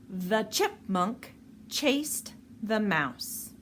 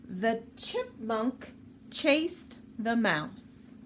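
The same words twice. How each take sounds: No difference in how they are said.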